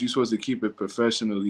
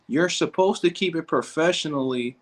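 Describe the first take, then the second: First: Said in the usual way. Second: Higher put-on prissy read of professionally; mock prim voice. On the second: Streamer quoting the coach's comment in a mocking prissy voice. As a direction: read the line back like a stuffy critic.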